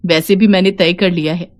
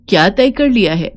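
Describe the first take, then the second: First: "तय कर लिया है" said as a settled statement; plain statement. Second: "तय कर लिया है" asked back, led by "क्या"; questioning echo. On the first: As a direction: announce "तय कर लिया है" without a questioning tune. Daughter-in-law states her decision. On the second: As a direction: turn "तय कर लिया है" into a probing question. Mother-in-law asks it back. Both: Acted.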